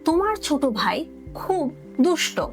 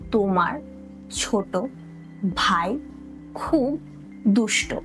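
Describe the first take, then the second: First: The sentence is said at normal speed. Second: The sentence is said slowly.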